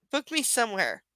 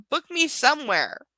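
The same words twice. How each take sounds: First: Said in the usual way. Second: Mocking repeat, higher and louder. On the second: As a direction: sneer the line back as a mock. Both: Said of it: "Also, way to give specific".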